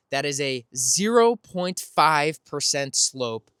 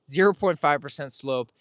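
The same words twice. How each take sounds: First: "zero point five percent slope" drawn out slowly, each word weighted; slow emphatic stress. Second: Said in the usual way. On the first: Shown as a demonstration.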